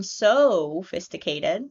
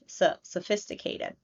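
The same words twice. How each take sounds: First: Sophisticated with a full clear O, soh-phisticated; wrong full vowel. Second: Sophisticated with a relaxed uh, suh-phisticated; right schwa; schwa vowel. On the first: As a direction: say the so of sophisticated with a rounded O. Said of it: "we're not hearing sophisticated". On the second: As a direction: relax the mouth on the first syllable of sophisticated. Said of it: "We're hearing s, relaxing our mouth". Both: Shown as a demonstration.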